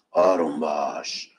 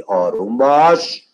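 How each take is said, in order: First: آروم باش dropped low and soft, almost breathed; soothing hush. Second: Calm down. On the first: Teacher hushing a fidgety student, low and soft. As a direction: settle the class with a hushed آروم باش. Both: Shown as a demonstration.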